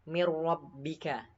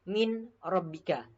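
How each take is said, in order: First: The n merges fully into the following r. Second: The n is pronounced separately before the r. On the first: The speaker calls it right. "bacanya seperti ini" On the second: The speaker calls it wrong. "Tidak boleh"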